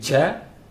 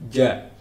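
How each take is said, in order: First: The j sound releases an audible puff of air. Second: The j sound is made with no air escaping. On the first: The speaker calls it wrong. "Bukan ja" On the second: The speaker calls it right. "Jangan sampai ada angin yang keluar"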